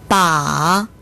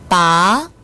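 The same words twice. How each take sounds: First: The pitch dips low, then rises. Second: The pitch rises from mid to high. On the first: It means a handle. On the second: It means to pull out.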